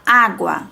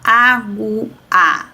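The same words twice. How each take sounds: First: The U sound after the G is heard. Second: The U sound after the G is dropped. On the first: The speaker calls it right. "tem que falar água" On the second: The speaker calls it wrong. "não posso falar água"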